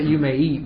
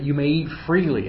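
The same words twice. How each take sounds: First: Said in the usual way. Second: Emphasis landing on freely; you may eat FREELY, with freely stressed. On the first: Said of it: "it's not just that". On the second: Shown as a demonstration. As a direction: lean on the word freely, pitch lifting then falling. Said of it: "it's an emphatic form".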